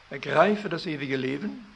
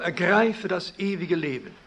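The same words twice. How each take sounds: First: The word 'Ergreife' is strongly emphasized. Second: The words are read without special emphasis.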